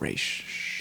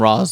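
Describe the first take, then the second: First: The name ends with a 'sh' sound. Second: The name ends without a 'sh' sound. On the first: This is the version heard most often. "It's Raish" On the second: This is how the film says it. "they call him Ra's al Ghul in this movie"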